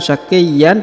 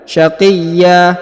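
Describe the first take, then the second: First: The word ends with an n sound. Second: The word ends on an open a vowel. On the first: The speaker calls it wrong. "bukan syaqiyyan" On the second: The speaker calls it right. "tapi syaqiyya ya"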